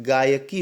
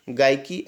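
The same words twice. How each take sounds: First: गायकी slowly as gaa-ya-kee; correct three syllables. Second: गायकी squeezed to two beats, gai-ki; merged-syllable mistake. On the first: Teacher correcting students, गायकी slowly as gaa-ya-kee. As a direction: separate all three beats of गायकी. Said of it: "गायकी होता है". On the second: Teacher showing the mistake, गायकी as gai-ki. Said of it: "गायकी ऐसे नहीं होता है". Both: Shown as a demonstration.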